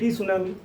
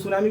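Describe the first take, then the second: First: The word starts with a sounded t. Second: The word starts with no t sound. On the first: It follows the spelling to help remember it. "सुनामी को टी सुनामी" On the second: This is how the word is normally said. "सुनामी को टी सुनामी"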